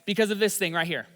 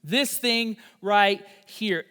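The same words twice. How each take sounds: First: Said in the usual way. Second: "This thing right here" drawn out slowly, each word weighted; slow down and lean on "This thing right here"; slow emphatic repeat. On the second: Shown as a demonstration.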